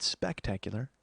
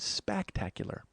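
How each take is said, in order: First: Said in the usual way. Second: Spectacular with a broad, held A in spack; extra A in spectacular. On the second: Shown as a demonstration. Host correcting the word spectacular, extra A stretched. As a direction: lean on the first A of spectacular. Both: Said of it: "I threw an extra A in there".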